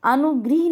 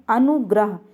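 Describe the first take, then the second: First: अनुगृह ending in "grih"; an i sound in the last syllable of अनुगृह; mispronunciation demo. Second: अनुग्रह ending in "grah"; an a sound in the last syllable of अनुग्रह; correct pronunciation. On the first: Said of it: "नहीं होता". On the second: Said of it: "ये सही होता है". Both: Shown as a demonstration.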